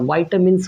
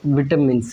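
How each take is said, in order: First: The first syllable has an 'eye' sound. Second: The first syllable has a short 'i' sound. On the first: "American English में जाते हो" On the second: "British pronunciation को ही हम लोग कहते हैं Indian pronunciation"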